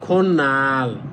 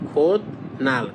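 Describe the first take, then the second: First: The first syllable ends in an n-like sound. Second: The first syllable ends in a d-like sound. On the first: "যখন একসাথে বলবেন তখন হবে খন নাল" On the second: "আলাদা আলাদা বললে হবে কি খোদ নাল"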